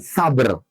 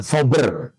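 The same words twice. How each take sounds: First: Sabr said "sa-bər" with a short a, not "so"; the right reading. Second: Sober said "so-bər" with an o, the reading to avoid; the wrong reading. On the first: Preacher correcting sober to Sabr, corrective pronunciation. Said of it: "Kalau sober itu pakai sod". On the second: Preacher showing the reading to avoid, contrasting pronunciation. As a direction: give sober with a round o, "sobər". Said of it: "Bukan sober ya". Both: Shown as a demonstration.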